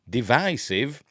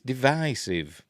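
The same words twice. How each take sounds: First: The middle vowel is short, as in division. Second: The middle vowel is long, as in divide. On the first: The speaker calls it wrong. "not divisive" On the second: The speaker calls it right. "it's divisive. You don't say divid, do you? You say divide"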